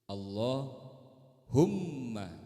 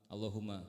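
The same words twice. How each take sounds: First: The m sound is doubled and held long. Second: The m sound is short and single. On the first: The speaker calls it right. "Jadi mimnya kudu double tuh" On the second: The speaker calls it wrong. "Jangan Allahumma, Allahumma. Gak bisa begitu"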